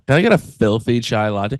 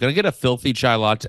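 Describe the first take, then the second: First: It is said in a sultry, seductive voice. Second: It is said in a plain, ordinary voice. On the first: "You almost have to say that in a horny voice" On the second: "try to say that not in a horny voice"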